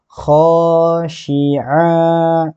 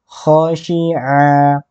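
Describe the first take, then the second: First: A vowel in the word is drawn out long. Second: Every vowel in the word is kept short. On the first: The speaker calls it wrong. "jangan dibaca khosyi'a. Tentu keliru" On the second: The speaker calls it right. "Yang benar khosyi'a. ... Pendek saja, jangan dipanjangkan"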